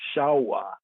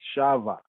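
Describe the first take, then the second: First: The middle consonant sounds like a w. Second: The middle consonant sounds like a v. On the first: This follows the ancient vowel pointing. The speaker calls it right. "the ancient pointing brings out even the word sound of it more better" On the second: This is how it is said in modern Hebrew. The speaker calls it wrong. "Modern Hebrew they say Shava"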